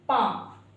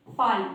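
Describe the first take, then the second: First: पाम with the L silent; long vowel straight into M in पाम; correct pronunciation. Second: पाल with the L sounded, louder; wrong pronunciation. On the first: Teacher showing learners the right reading, L silent in पाम. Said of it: "तो हम इसको पढ़ेंगे". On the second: Teacher showing learners a wrong reading, L voiced in पाल. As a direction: say पाल with an audible L. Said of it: "जो कि गलत है". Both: Shown as a demonstration.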